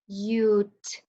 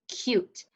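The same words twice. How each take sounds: First: "Cute" broken into k, long u, t; tapped-out sounds. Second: Said in the usual way. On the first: Shown as a demonstration. Teacher tapping the word out, "Cute" in separate sounds. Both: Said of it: "Let's tap this one out".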